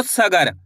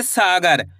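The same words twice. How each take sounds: First: "सगर" with a short "sa", not stretched; short first vowel. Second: "सागर" with a long, stretched "saa"; long first vowel. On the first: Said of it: "ऐसे नहीं पढ़ना आपको". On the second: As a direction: hold the first vowel of "सागर", then let it fall. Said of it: "सा को खींच के पढ़ेंगे". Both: Shown as a demonstration.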